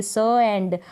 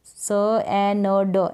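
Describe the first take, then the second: First: स, एंड with न blended into the ending; स, एंड with a half न before ड; joined pronunciation. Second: स, ए, न, ड as four separate sounds; स, ए, न, ड with a full vowel on न and ड; wrong split reading. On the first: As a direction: sound out स, then एंड as one unit. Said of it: "इसको साथ में प्रोनाउंस कर दे". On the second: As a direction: sound out स, ए, न, ड one by one. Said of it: "ऐसे पढ़ देंगे तो गलत हो जाएगा". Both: Shown as a demonstration.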